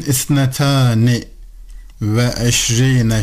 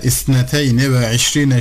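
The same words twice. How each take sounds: First: Isnetani ve eşrine, with long "taa" in isnetani; rejected reading. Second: Isneteyni ve eşrine, with "tey" in isneteyni; chosen reading. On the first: Teacher voicing the question learners might ask, rejected reading. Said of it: "şeklinde değil de". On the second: Teacher quoting the reading just used, chosen reading. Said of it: "şeklinde okuduk derseniz". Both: Shown as a demonstration.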